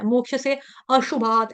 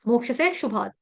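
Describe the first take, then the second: First: An 'a' sound is spoken before 'shubhat'. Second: No 'a' sound is spoken before 'shubhat'. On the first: The speaker calls it wrong. "ऐसे नहीं पढ़ना है" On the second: The speaker calls it right. "यूं पढ़ेंगे"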